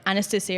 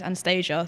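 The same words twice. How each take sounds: First: The name is said in the speaker's everyday pronunciation. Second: The name is said with an American pronunciation. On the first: "is the way I say it" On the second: "the American version"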